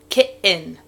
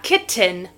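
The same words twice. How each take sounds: First: The middle T is dropped, not pronounced. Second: The middle T is clearly pronounced. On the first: "The T isn't pronounced" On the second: "Not kitten"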